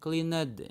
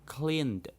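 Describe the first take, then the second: First: The ending is an extra syllable. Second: The ending is a plain d sound. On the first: The speaker calls it wrong. "enggak cleaned ya" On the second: The speaker calls it right. "Bacanya cleaned"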